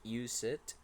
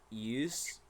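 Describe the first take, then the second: First: An extra vowel adds a second syllable. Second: It is said as a single syllable. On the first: The speaker calls it wrong. "there is no a sound. It is not use it" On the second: The speaker calls it right. "it is only used"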